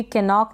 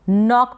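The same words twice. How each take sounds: First: केनॉक with the silent k wrongly voiced; wrong sounded K. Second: नॉक starting straight on the n; नॉक, opening on a clean n; silent K. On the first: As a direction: say केनॉक with an extra 'ke' before the n. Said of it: "इसको भी केनॉक ना पढ़ें". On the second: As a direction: say नॉक with no k sound in front. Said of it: "के silent है". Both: Shown as a demonstration.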